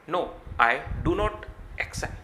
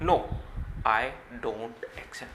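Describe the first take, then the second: First: The words do not are said separately. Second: The words do not are contracted into one. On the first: "आप ऐसे भी कह सकते हो" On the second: "डू नॉट को mix करके डोंट बोला जाता है"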